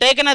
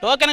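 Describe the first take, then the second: First: The first vowel sounds like 'ay'. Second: The first vowel sounds like 'oh'. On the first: The speaker calls it right. "అది టేకెన్ అది" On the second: The speaker calls it wrong. "టోకెన్ కాదండి"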